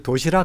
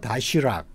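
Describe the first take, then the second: First: The first syllable is said with an 'o' vowel. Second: The first syllable is said with an 'a' vowel.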